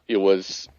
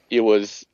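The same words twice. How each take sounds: The two takes are said the same way.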